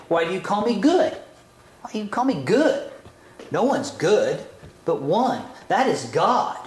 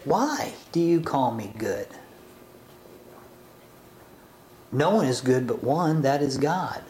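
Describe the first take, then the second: First: Quick, rising "Why do you call me good?"; rebuking reading. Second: Gentle probing reading. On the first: Yeshua rebuking the man, quick and rising. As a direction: fire it back like a challenge. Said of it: "maybe we read it this way". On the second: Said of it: "So what about reading it this way?". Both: Shown as a demonstration.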